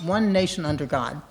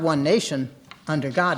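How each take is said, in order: First: There is no pause after 'nation'. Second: There is a pause after 'nation'.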